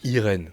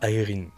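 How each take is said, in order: First: The name is pronounced the French way. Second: The name is pronounced the English way. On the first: The speaker calls it right. "On prononce bien la française" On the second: The speaker calls it wrong. "J'aime pas Irene"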